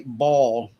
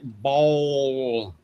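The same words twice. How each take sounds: First: The word is said plainly, with no drawl. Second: The word is drawn out in a Southern drawl. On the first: "They don't just say ball" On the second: "they add that Southern drawl, which would make it like ball"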